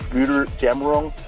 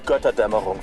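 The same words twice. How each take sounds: First: The word is said with a mangled anglicized pronunciation. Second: The word is said with native German pronunciation. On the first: The speaker calls it wrong. "the way he pronounces it" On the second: The speaker calls it right. "it's Götterdämmerung"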